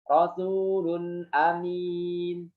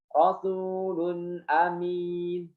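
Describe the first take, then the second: Both takes have the same delivery.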